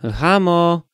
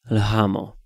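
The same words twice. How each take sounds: First: High, loud call of the name; ringing call to get attention. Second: Said in the usual way. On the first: A narrator's reading. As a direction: call a child away from her play. Father calls out to daughter.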